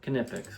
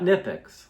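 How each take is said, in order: First: The initial K is pronounced. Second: The initial K is silent. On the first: The speaker calls it right. "We say the K" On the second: The speaker calls it wrong. "Not Nipix"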